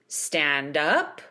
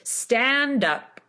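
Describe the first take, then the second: First: The pitch goes up at the end. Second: The pitch goes down at the end. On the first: It is a question. "to make it a question ... You go up in pitch at the end" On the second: It is a statement. "Make it a statement. You're going to go down in pitch at the end"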